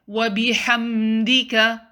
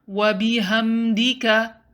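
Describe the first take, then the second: The two takes are said the same way.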